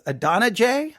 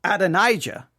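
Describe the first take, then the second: First: Adonijah as uh-DON-uh-jay; the other speaker's pronunciation. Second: Adonijah as ad-uh-NIGH-juh; own pronunciation. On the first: Retold or imitated. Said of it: "he just referred to him as". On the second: Shown as a demonstration. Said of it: "I refer to him as".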